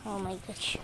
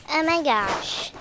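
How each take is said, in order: First: Said in the usual way. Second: Loud, slow drawn-out oh my gosh; amazed exclaim. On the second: Real, not acted. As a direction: marvel out loud at the harvest. Amazed at many vegetables. (malakas at mabagal na pagkamangha)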